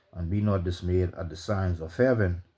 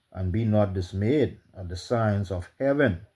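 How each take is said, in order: Both takes have the same delivery.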